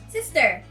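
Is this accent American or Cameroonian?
American. It is said in an American accent. "Americans will say sister"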